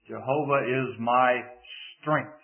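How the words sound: The word strength is stressed. The power comes from God, not from oneself. "if we place the emphasis on the fourth word"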